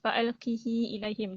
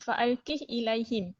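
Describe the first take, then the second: First: The h carries an i vowel lengthened into the next word. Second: The h is said bare, with no following vowel. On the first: "kasrahkan hak uh, dan silah" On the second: "baca dengan sukun hak"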